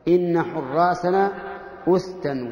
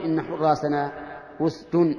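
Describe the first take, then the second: First: حراسنا أسدا read slowly, with the final alif on أسدا; slow, deliberate reading of أسدا ending in -an; naṣb form. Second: أسد said with a plain nominative ending, no -an; plain reading ending on أسد; raf' form. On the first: Sheikh shows students the correct form: أسدا with the accusative -an ending. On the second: Sheikh gives students the form the poet did not use: أسد. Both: Shown as a demonstration. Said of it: "ولم يقل".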